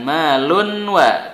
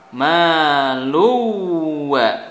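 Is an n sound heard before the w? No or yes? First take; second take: yes; no. First: The n is pronounced clearly before the w. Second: The n disappears and merges into the w. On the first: The speaker calls it wrong. "bukan malunwa" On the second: The speaker calls it right. "Maluwa bukan malunwa"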